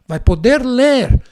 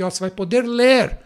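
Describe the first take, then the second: First: "vai poder ler" said louder and slower; emphatic repeat. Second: Said in the usual way. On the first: Real, not acted.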